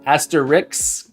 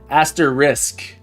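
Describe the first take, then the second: First: The ending is blurred, sounding like 'ix'. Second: The ending is clear, sounding like 'isk'. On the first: The speaker calls it wrong. "Am I am I saying that word wrong?" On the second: The speaker calls it right. "I'm just not putting an emphasis on the asterisk"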